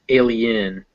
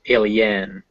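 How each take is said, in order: First: The last syllable has a reduced schwa vowel. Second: The last syllable has a full vowel. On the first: The speaker calls it right. "because they're schwas" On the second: The speaker calls it wrong.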